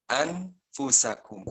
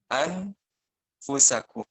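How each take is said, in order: First: The n is pronounced clearly before the f. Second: The n is pronounced clearly before the f.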